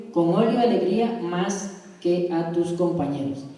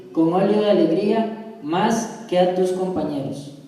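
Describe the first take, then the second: Both takes have the same delivery.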